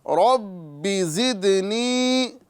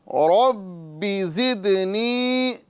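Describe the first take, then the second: The two takes are said the same way.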